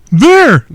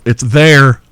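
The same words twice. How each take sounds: First: There! snapped out high and loud; mock shout. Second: Said in the usual way. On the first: Teasing the prey with the safe word, shouting. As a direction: bark There! as a correction. Playing out the wrong-variant game.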